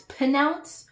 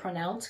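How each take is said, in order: First: The word is said without the r sound. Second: The word is said with the r sound. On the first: The speaker calls it wrong. "I used to pronounce the word as pronounce" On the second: The speaker calls it right. "I actually can say that word pronounce correctly"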